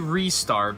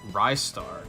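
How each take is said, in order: First: The first syllable sounds like 'ree'. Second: The first syllable sounds like 'rise'. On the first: It follows a Japanese-style pronunciation. "it would probably be Restar because Japanese pronunciation" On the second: He is a rising star. "He was Sega's rising star. Rise Star. Simple"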